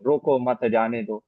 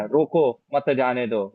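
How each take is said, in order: First: रोको मत, जाने दो, with a slow break after मत; slow demo, pause after मत. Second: रोको, मत जाने दो, with a slow break right after रोको; slow demo, pause after रोको. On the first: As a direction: join रोको मत, then pause and say जाने दो slowly. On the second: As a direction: stop on रोको, then say मत जाने दो slowly as one phrase. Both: Shown as a demonstration. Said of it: "मैंने बहुत, कई बार बोला ना".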